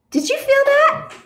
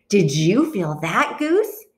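First: High, loud startled question. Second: "you" lifted in "Did you feel that"; stress on YOU. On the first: One bird feels the egg move, startled question. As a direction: pitch it way up, suddenly alert. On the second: Duck asks Goose in return, stress on "you". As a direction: lean on "you", turning the question back. Duck turns the question back. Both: A narrator's reading.

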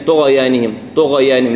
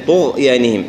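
First: "طغيانهم" with an extra short vowel after gh; qalqala on ghayn. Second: "طغيانهم" with gh held, no vowel after it; still ghayn. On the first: Teacher showing the echo mistake, gh bounced. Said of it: "ما نقلقلها". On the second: Teacher correcting the bounce, steady gh. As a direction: rest on the gh of "طغيانهم" before y. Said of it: "لا، طغيانهم". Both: Shown as a demonstration.

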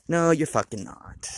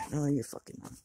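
First: Slow, loud, emphatic no; loud retort. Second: Said in the usual way. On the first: Real, not acted. Scolding his own excuse about quitting, loud and slow. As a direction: slam the denial down, slowly. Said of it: "retorting to himself, loud". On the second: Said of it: "repeated denial, quieter".

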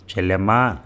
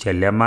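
First: చెల్లెమ్మా called once with the tune falling at the end; a calm call to his sister, చెల్లెమ్మా falling. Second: చెల్లెమ్మా called with a rising tune, a touch louder; calling his sister a second time, చెల్లెమ్మా rising; calling again. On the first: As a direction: call చెల్లెమ్మా and let the voice drop on the last syllable. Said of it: "అని పిలిచేవాడిని". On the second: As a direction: call చెల్లెమ్మా again, lifting the end like a question. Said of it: "అని పిలிచేవాడిని". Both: Retold or imitated.

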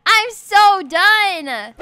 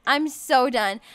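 First: "I'm so done" stretched very slowly; drawn-out exasperation. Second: Said in the usual way. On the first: Real, not acted. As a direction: drag out each word of "I'm so done".

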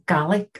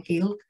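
First: "Gaelic" said as "GA-lick" with a plain a; "Gaelic" in its Irish form, KA-lick, before the correction; Gaelic with the usual Irish sound. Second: "Gaelic" corrected to the Manx "Gilk", one short syllable; Manx pronunciation of Gaelic. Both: Shown as a demonstration. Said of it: "Gaelic, sorry".

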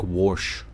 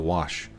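First: "wash" with an r sound, like warsh, Missouri twang. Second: "wash" said the standard way, no r, quiet; plain standard "wash" with no r. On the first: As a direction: say "wash" as warsh, hillbilly style. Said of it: "I say stuff like "wash" instead of "wash". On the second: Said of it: "instead of". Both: Shown as a demonstration.

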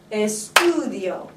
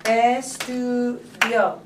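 First: ESTUDIO with a long, stressed STU. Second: ESTUDIO broken slowly into separate syllables. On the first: Teacher showing where the accent goes, STU stressed in ESTUDIO. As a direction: lean slowly on STU, then let "dio" fall away. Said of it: "where do I accent that word". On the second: Teacher counting syllables for students, ESTUDIO slowly split up. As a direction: draw out each syllable of "Estudio" with small gaps. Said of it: "how many syllables are in it". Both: Shown as a demonstration.

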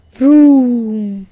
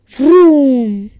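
First: Loud, drawn-out engine vroom; booming vroom, held long; motorcycle roar. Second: Very loud motorcycle vroom; big roaring vroom, long and falling; louder engine roar. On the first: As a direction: imitate a roaring motorbike engine. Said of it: "A loud roaring sound". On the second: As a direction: let the engine noise swell, then fall away. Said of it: "The roaring got louder". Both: A narrator's reading.

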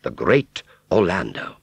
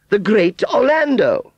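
First: Said in the usual way. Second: Very high, loud, drawn-out title; grand proclamation. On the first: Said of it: "which read". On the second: Acted. Aunt Sally announcing the strong man's title, grand. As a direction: proclaim the name slowly and proudly.

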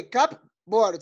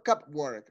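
First: "cupboard" drawn out in two separate beats; slow word model. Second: Said in the usual way. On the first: Shown as a demonstration. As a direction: say "cupboard" slowly, split into cup and board. Teacher models the word for pupils. ("cupboard" despacio, separando las dos partes)

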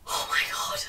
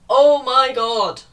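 First: Breathless whisper of dismay; whispered oh my god. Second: Slow and louder, fed up; drawn-out exasperated oh my god. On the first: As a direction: whisper it, stunned. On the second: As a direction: stretch it out, exasperated. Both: Real, not acted. Reacting to the plot.

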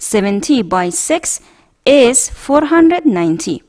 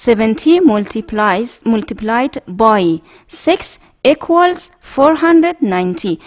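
First: Slow reading, short form "by"; slow model reading with by. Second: Slow, clear model reading. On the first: Teacher showing the short way to read multiplication, slow. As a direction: say "by" slowly in place of multiplied by. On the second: Teacher reading a multiplication problem aloud for the class, slow. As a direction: say each word slowly. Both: Shown as a demonstration.

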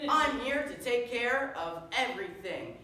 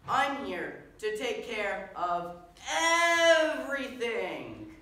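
First: High, loud heroic boast; superhero proclamation. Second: Very loud, slow, high, with a hugely stretched "everything"; over-emphatic superhero. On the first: Superhero promising the crowd his help, bombastic. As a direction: declare it proudly to the crowd. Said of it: "your friendly neighborhood superhero". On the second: Superhero repeating his boast because nobody was impressed, over-emphatic. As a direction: spell it out grandly for an unimpressed crowd. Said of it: "maybe I wasn't clear enough". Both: Acted.

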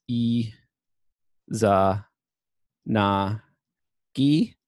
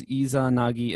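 First: E, Za, Na, Gi as separate syllables with long pauses. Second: Said in the usual way. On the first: Shown as a demonstration. Lecturer reading characters for their sound, syllable by syllable. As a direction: read out E ... Za ... Na ... Gi, one sound at a time. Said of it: "So this is". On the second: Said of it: "so this is Izanagi".

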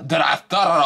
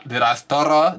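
First: "stutter" falling, final and firm; sassy repeat, falling. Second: "stutter" rising as a challenge; sassy rhetorical. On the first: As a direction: shut it down with a falling tone. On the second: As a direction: ask it with a sassy lift. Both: Shown as a demonstration. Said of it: "Stop playing".

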